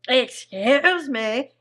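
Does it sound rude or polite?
rude. It is said in a rude, exaggerated way.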